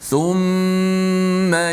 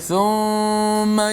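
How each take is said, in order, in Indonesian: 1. Dengung hidung pada huruf m ditahan panjang. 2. Dengung hidung pada huruf m dipotong pendek. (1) "thumma yatubullah, thum" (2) "tak boleh thumma yatu, ah tu yang silap"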